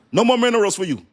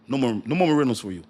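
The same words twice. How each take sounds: First: High, loud shouted refusal; big hammed-up no; mock shout. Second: Fast, clipped-off refusal; fast teasing no; quick mock refusal. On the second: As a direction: rattle it off like a quick brush-off. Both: China voiced cutting off minerals.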